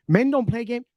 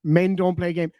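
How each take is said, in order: First: "Men don't play game" repeated higher in mock disbelief. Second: Said in the usual way. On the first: Streamer mocking a chat comment in a higher voice. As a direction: echo the quote higher as if ridiculing it.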